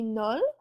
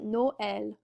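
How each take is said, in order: First: The vowels merge into a single syllable. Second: The o and e are sounded separately. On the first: "Normally that word would just be Nol" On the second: "with our tréma in there, it's going to become Noël"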